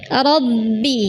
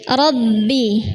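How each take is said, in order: Both takes have the same delivery.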